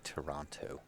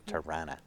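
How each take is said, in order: First: The name is said in full, every syllable clear. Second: The name is said in a shortened, reduced form. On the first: This is how outsiders say it. The speaker calls it wrong. "you don't say Toronto. That's a very Western Canadian thing to say" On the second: This is how locals say it. The speaker calls it right. "It's Tirana"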